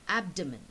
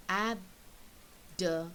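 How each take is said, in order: First: Said in the usual way. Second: "abdomen" very slowly, AB, DO, MEN with pauses; split into syllables. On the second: Shown as a demonstration. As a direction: break "abdomen" into three separate beats. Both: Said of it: "three syllables".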